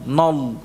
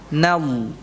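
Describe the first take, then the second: First: The vowel after n is heavy and rounded. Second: The vowel after n is thin and open. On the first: The speaker calls it wrong. "bukan nol" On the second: The speaker calls it right. "nanya tipis"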